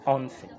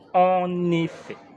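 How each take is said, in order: First: The first vowel of 'effet' is dropped entirely. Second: The first vowel of 'effet' is clearly pronounced. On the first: The speaker calls it wrong. "pas en fait" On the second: The speaker calls it right. "Il faut prononcer en effet"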